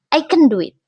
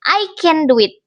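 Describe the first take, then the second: First: "can" reduced to a quick schwa, "kən". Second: "can" said with a full, stressed vowel, like "kan". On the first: Teacher demoing the reduced "can" in connected speech. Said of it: "It often reduced to can". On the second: Teacher showing the unreduced "can". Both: Shown as a demonstration.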